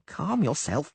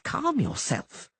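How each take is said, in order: First: High halfling, amused; grinning reassurance. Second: Drawn out high and amused, calm yourself; slowed grinning repeat. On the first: Halfling Dainty soothing the frightened poet, high and amused. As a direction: say it with a grin. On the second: Halfling Dainty teasing the panicked poet, slow and amused. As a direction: stretch calm yourself slowly with a grin. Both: A narrator's reading. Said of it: "Dainty grinned".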